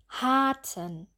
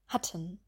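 First: The a vowel is drawn out long. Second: The a vowel is clipped short. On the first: The speaker calls it wrong. "ganz stark übertreiben" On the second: The speaker calls it right. "dann kurz hatten"

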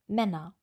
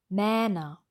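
First: The first vowel is a short open ä. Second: The first vowel is a long open ä. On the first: The speaker calls it right. "Wir wollen Männer" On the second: The speaker calls it wrong. "Mähner wollen wir auch nicht"

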